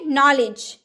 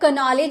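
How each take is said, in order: First: The word starts with an n sound. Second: The word starts with a k sound. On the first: The speaker calls it right. "क्योंकि यहाँ तो के silent है" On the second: The speaker calls it wrong. "क्या हम लोग कनॉलेज बोलेंगे? नहीं ना"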